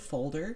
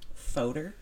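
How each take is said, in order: First: The word is said with a clear L sound. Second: The word is said without the L sound. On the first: The speaker calls it right. "Instead of folder" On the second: The speaker calls it wrong. "she said fodor"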